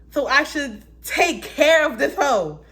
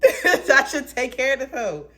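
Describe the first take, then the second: First: High, loud, slow sassy voice; loud sassy drawl; sassy joke. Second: High, loud, laughing through it; giggling sassy repeat. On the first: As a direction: sass it out, drawn out. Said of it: "joking self-talk". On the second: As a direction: laugh while repeating the joke. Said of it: "repeated laughing". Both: Acted.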